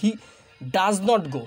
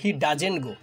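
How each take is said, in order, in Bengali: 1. 'Does not' দুটো পূর্ণ শব্দ হিসেবে বলা হয়। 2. 'Does not' সংক্ষিপ্ত হয়ে এক সিলেবল-জোড়া হয়। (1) "ডাজ নট গো এভাবে কিন্তু আমরা সাধারণত বলি না" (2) "একদম সংক্ষিপ্ত রূপ"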